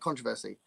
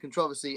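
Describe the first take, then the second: First: It is said the American way. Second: It is said the British way.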